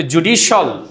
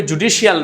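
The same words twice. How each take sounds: First: জুডিশিয়াল clipped to "judishol", three syllables; the right জুডিশিয়াল with a short "-shol" end; correct judicial. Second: জুডিশিয়াল said wrongly with a full "-shial" ending; the mistaken জুডিশিয়াল, four syllables; wrong judicial. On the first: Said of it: "বলতে হবে জুডিশিয়াল". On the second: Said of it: "বলতে হবে জুডিশিয়াল না". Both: Shown as a demonstration.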